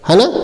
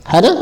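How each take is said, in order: No difference in how they are said.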